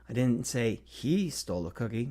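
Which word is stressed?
he. The stress is on the word he.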